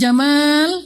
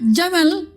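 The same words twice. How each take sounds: First: The vowel in the word is held long. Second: The vowel in the word is cut short. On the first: It means beauty. "Kalau panjang Jamal indah" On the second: It means a camel. "Kalau pendek Jamal, itu onta"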